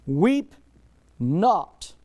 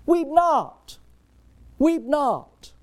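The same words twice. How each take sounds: First: Firm imperative, not louder than before; commanding weep not. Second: High, loud "Weep not" proclaimed; ringing command. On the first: Jesus to the grieving mother, a firm command. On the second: Preacher voicing Jesus to the mother, high and loud. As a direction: call out "Weep not" with full authority. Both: Acted.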